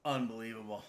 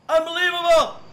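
First: Lower, softer disbelief; quiet disbelief; stunned mutter. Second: Much higher, louder shout; full outraged shout; exploding in disbelief. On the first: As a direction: say it under your breath, stunned. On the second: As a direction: yell it out, fed up. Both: Real, not acted. Escalating repeats of unbelievable.

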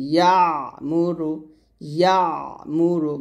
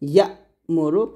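First: ইয়া drawn into a squeezed ayn, then মুরু; pressed ayn. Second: ইয়া cut short with a glottal jerk, then মুরু; jolted hamza. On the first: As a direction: lean on the throat at the end of ইয়া before মুরু. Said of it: "চাপ দিয়ে বলতে হবে". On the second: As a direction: snap ইয়া shut on a hamza stop before মুরু. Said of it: "ধাক্কা দিয়ে বলতে হবে, ঝটকা করে". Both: Shown as a demonstration.

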